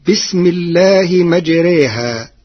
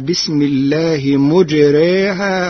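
First: The last word begins with ma. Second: The last word begins with mu.

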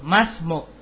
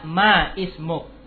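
First: 'Ma' runs straight into 'smuk' without a stop. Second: A glottal stop separates 'ma' from 'ismuk'. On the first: The speaker calls it right. "Langsung dibaca wasol" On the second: The speaker calls it wrong. "tidak dibaca ma ismuk"

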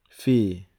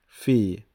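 Both takes have the same delivery.

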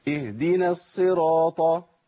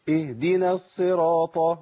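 No difference in how they are said.

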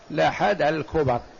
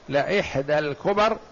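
First: The glottal stop in the first word is dropped. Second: The glottal stop in the first word is pronounced. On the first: "بالتخفيف" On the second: "بالهمزة"

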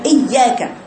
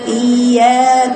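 First: The y sound is cut off with a stop. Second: The y sound flows smoothly and rises upward. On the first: The speaker calls it wrong. "بعمل فيها نبر يعملها زي إياك يقطع صوت الحرف" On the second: The speaker calls it right. "بيقرأه بسلاسة اياك ويفاتح لفوق صوت فوق يتصاعد لأعلى"

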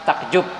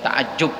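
First: The middle consonant is a k sound. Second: The middle consonant is the Arabic ain sound. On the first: This is the Indonesian adaptation without ain. "karena Indonesia tidak mengenal konsonan ain, maka pakai kaf" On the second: This is the original Arabic form. "itu dari ta'ajub"

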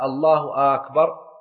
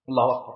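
First: The opening hamza of the second word is lengthened. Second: No sound in the phrase is lengthened. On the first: It asks whether God is greatest or not. The speaker calls it wrong. "لو مد همزة أكبر" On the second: It is a statement that God is greatest. The speaker calls it right. "بأن يقول الله أكبر"

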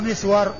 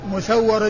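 First: Short i first, then a single w sound. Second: Short u first, then a doubled w sound. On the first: This is the form for everyone else. "بالميم المكسورة والسين الساكنة والواو المفتوحة" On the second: This is the form for only two narrators. "الميم مضمومة والسين مفتوحة والواو مشددة"

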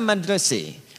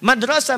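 First: The word ends in a fronted e vowel. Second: The word ends in an open a vowel. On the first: "Bisanya E" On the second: "Ada yang bisa A"

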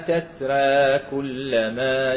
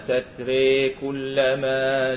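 First: The final vowel sits halfway between a and e. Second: The final vowel is bent fully toward an e. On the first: "التقليل" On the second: "الإمالة قولا واحدا"

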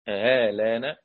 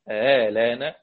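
No difference in how they are said.

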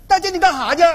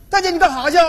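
No difference in how they are said.

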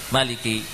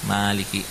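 First: The vowel after the m is short. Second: The vowel after the m is long. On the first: This follows another accepted reading tradition. "dibaca pendek" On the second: This follows the reading tradition used in the lesson. "mimnya panjang"

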